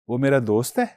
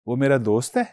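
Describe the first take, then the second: First: It is said with a questioning tune. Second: It is said with a questioning tune.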